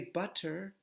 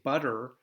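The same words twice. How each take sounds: First: British-leaning accent, with a clear T sound. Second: American accent, the middle T sounds like D. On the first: "if you use the T, you're starting to go a little bit British" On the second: "we American English, we say butter"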